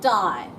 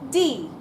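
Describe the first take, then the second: First: The vowel sounds like English 'eye'. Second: The vowel sounds like English 'ee'. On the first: The speaker calls it wrong. "this is not die" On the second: The speaker calls it right. "in German it's die"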